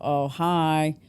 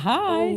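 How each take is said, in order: First: The greeting sounds tired and low in energy. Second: The greeting sounds cheerful and full of energy.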